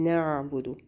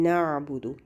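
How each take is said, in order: No difference in how they are said.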